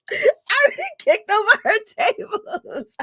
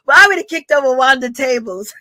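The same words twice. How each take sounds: First: High, giggling through the words; laughing. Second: Said in the usual way. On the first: Real, not acted. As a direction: say it while cracking up, pitched up. Laughing repeat of threat. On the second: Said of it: "I'm exaggerating".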